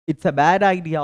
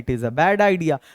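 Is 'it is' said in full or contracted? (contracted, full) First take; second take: contracted; full. First: It is shortened to one syllable, its. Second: It is said as two full words.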